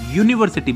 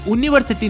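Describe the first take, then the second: First: The word begins with a 'y' consonant sound. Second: The word begins with a plain vowel sound. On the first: The speaker calls it right. "ये यू यानी कि व्यंजन है" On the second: The speaker calls it wrong. "नहीं"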